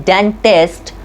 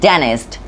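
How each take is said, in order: First: The T after the N is pronounced. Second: The T after the N is dropped. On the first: The speaker calls it wrong. "we don't say dentist" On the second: The speaker calls it right. "it's often get removed"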